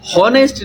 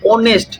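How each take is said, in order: First: The word begins with an h sound. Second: The word begins with a vowel sound. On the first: The speaker calls it wrong. "हॉनेस्ट नहीं" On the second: The speaker calls it right. "ओ का आवाज दे रहा है"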